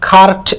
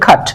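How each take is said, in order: First: The r sound is pronounced after the vowel. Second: The r sound is silent after the vowel. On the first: The speaker calls it wrong. "এভাবে না বলি" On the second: The speaker calls it right. "তার মানে এই আরটা silent থাকবে"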